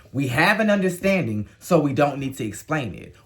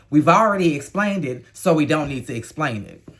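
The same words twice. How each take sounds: First: Said in the usual way. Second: Louder, pointed take on 'We've already explained it'; mock quoting. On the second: Host throwing Rachel's words back, pointed. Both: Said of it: "What you said is".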